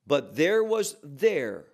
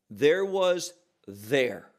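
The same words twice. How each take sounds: First: Said in the usual way. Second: Slow, weighty there was THERE with THERE leaned on; stress on there. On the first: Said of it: "I would emphasize that". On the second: Shown as a demonstration. Preacher stressing the emphatic word to the congregation. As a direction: drag out "there was there", landing hard on the last THERE. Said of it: "I would emphasize that because that word there".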